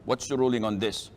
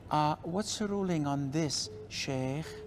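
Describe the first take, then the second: First: It is said in a plain, direct voice. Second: It is said in a soft, alluring voice.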